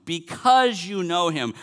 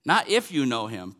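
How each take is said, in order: First: BECAUSE hit louder and higher, drawn out; slow, raised emphasis on "because"; stress on because. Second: "if" picked out as the rejected word; light emphasis on "if", then falling away; stress on if. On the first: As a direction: correct it by punching "because". Corrects if to because. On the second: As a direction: set up a contrast by leaning on "if". Rejects if, contrasted with because. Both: Real, not acted.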